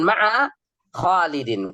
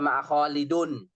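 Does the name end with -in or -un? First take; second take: -in; -un. First: The name ends with the sound in. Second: The name ends with the sound un. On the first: The speaker calls it right. "Kenapa Khalidin? Dia mudhafun ilaihi" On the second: The speaker calls it wrong. "Nggak boleh baca ma'a Khalidun"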